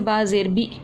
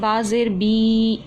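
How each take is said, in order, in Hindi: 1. आख़िरी स्वर को झटके से काटा गया है। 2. आख़िरी स्वर को लंबा खींचा गया है। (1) "या झटके से" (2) "खींच कर कैसे? जैसे"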